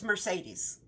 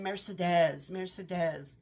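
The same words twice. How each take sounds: First: Mercedes said mer-SAY-deez, the American way; American pronunciation. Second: Mock French pronunciation. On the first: Shown as a demonstration. Correcting the audiobook narrator with the American Mercedes. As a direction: Mercedes with stress on SAY, the plain American reading. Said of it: "Well, it's Mercedes". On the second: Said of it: "I'm like, "Oh, that's a pretty name".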